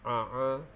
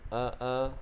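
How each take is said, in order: First: It starts with a tight, squeezed sound in the throat. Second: It starts with a light catch deep in the throat. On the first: The speaker calls it wrong. "bukan a a. Kalau a a dah jadi ain" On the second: The speaker calls it right. "huruf hamzah keluarnya di situ"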